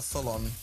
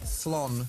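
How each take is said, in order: First: The ending is said as two syllables. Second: The ending is said as one syllable. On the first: The speaker calls it wrong. "It's not tholon" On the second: The speaker calls it right. "It's thlon"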